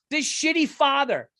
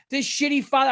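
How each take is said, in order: First: Higher, disgusted, "shitty" hit hard. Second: Higher, stress moving to "father"; disgusted repeat. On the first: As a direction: spit out the insult. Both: Real, not acted.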